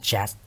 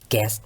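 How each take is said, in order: First: The syllable begins with a j sound. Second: The syllable begins with a hard g sound. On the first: The speaker calls it right. "แต่อ่านว่า" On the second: The speaker calls it wrong. "ไม่ได้อ่านว่า"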